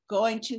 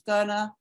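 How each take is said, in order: First: Both words are said fully and separately. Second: The words are reduced and run together quickly.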